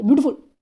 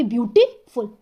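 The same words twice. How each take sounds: First: beautiful squashed together fast, no gap; hurried one-piece beautiful; rushed in one go. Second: beautiful slowly, with a gap before फुल; careful two-beat beautiful; broken into syllables. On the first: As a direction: rattle off beautiful as a single beat. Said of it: "पर ऐसे थोड़ी ना बोल देंगे". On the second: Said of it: "पर इनको हम ऐसे बोलेंगे". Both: Shown as a demonstration.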